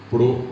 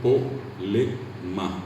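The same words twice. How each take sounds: First: "problema" broken into pro, ble, ma with long gaps; syllable by syllable "problema", both clusters intact; full consonant clusters. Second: "polema" in slow separate syllables, no R or B; simplified consonant clusters. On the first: Showing what Paraguayans cannot say, "problema" split with PR and BL. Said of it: "El paraguayo no puede decir". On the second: Showing how Paraguayans say problema, slow "polema" without clusters. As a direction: spell out "polema" as po, le, ma. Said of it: "El paraguayo dice polema". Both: Shown as a demonstration.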